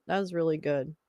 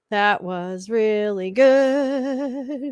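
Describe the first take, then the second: First: Said in the usual way. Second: Very slow, stretched-out delight; slow, lingering praise; drawn-out praise. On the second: Acted. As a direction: savour every word of it.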